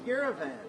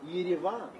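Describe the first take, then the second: First: It is pronounced in an English-style way. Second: It is pronounced in an Armenian-style way.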